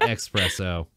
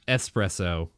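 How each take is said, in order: First: The word begins with an ex sound. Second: The word begins with a plain ess sound. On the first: The speaker calls it wrong. "not espresso" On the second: The speaker calls it right. "learn to say the fucking word right. It's es- espresso"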